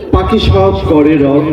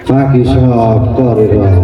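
First: It is said in the speaker's ordinary voice. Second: It is said in an imitated film-actor voice. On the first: "কবিতাটি হচ্ছে" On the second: "উনি এই কবিতাটা আমাকে আবৃত্তি করে শোনালেন এইভাবে।"

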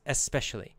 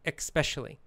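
First: It starts with a plain E-S sound. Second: It starts with an E-K-S sound. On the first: "It's pronounced E-S, especially. That's the dictionary pronunciation" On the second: "probably most Americans pronounce it with the K sound, and they say especially"

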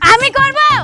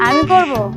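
First: The phrase is said very loudly. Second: The phrase is said very softly. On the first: "এত জোরে বলা কি আছে?" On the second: "আস্তে করে বলে যাচ্ছে"

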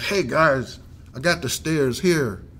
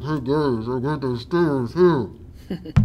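First: It is hollered in a clear voice. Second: It is said in a weak, muffled voice.

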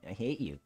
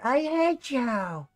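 First: It is said in a flat, bored way. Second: It is said in a whiny, complaining way.

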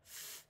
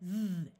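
First: The th sound is unvoiced, only breath. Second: The th sound is voiced, with buzzing. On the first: "the unvoiced sound of th" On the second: "the voiced sound of th"

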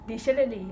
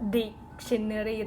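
First: The first syllable is not strongly stressed. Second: The first syllable is strongly stressed. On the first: The speaker calls it right. "แต่ภาษาอังกฤษจริงๆเขาไม่เน้นดิหรอก" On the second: The speaker calls it wrong. "คนไทยจะเน้นจะ"

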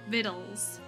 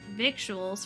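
First: The word rhymes with little. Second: The word does not rhyme with little. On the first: The speaker calls it right. "it rhymes with little" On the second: The speaker calls it wrong. "so I mispronounce it"

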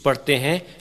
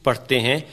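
No difference in how they are said.

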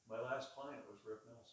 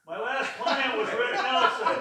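First: It is said at a medium volume. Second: It is said very loudly.

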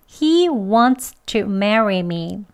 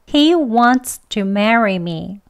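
First: Every sound of wants to is fully pronounced. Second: The same.

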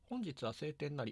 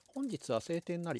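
First: An air conditioner runs in the background. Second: No air conditioner runs in the background. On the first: "エアコンをつけました。" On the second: "エアコンを止めました。"

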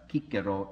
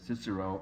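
First: The name is said with classical Latin sounds. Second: The name is said with English-style sounds. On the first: "I could probably satisfy some Latin purists here if I talked about Cicero" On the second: "instead of Cicero"

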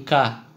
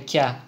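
First: The consonant is hard, with a plain a. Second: The consonant is soft, closer to ya. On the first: The speaker calls it wrong. "Это не КА" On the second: The speaker calls it right. "это КЯ... она мягкая и она ближе к Я"

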